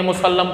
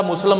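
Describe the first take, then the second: First: मुसल्लम with full middle vowel and doubled l, mu-sal-lam; correct reading. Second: मुसल्लम misread, without its full middle vowel and doubled l; wrong reading. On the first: Teacher giving students the right मुसल्लम, correct pronunciation. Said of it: "मुसल्लम नहीं पढ़ेंगे, मुसल्लम". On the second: Teacher warning students off misreading मुसल्लम, wrong pronunciation. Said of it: "नहीं पढ़ेंगे". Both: Shown as a demonstration.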